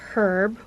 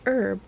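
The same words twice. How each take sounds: First: The word begins with an audible H sound. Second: The word begins with no H sound. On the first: "where you pronounce the H" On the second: "where you don't pronounce the H"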